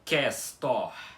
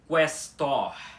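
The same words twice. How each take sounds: First: The u after the q is silent. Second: The u after the q is pronounced. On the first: The speaker calls it wrong. "não" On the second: The speaker calls it right. "Com o u pronunciado"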